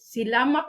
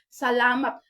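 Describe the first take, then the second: First: The first vowel is pronounced like i. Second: The first vowel is pronounced like a. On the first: This is how a reader goes by the written spelling. "Ang ato ang pagbasaan na kung kita nga Pinoy is silamat" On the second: This is how native speakers actually say it. "pero ang ilahang pronunciation is salamat"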